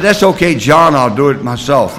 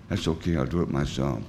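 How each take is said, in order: First: High and loud, pushing the offer away; loud refusal. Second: Quiet echo. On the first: Retold or imitated. Turning down his sponsor John's help, in a loud refusal. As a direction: wave him off loudly, almost a shout. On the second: Shown as a demonstration. A sober man echoing his old refusal, softly. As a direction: lower and softer, a rueful murmur.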